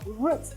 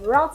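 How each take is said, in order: First: The word is said with a British pronunciation. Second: The word is said with an American pronunciation. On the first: "root is a British pronunciation" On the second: "route is actually the American pronunciation"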